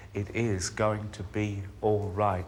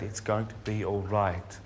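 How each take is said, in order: First: Insist, with the weight on "is"; stress on IS. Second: Said in the usual way. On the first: Acted. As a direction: lean firmly on "is", spacing the words out. Insists after first reassurance.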